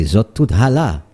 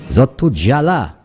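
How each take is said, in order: First: "hala" said with an h sound; Zot tout hala. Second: Zot tout "jala" with zh at the start, as in some places. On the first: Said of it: "they say". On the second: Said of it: "they'll say". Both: Shown as a demonstration.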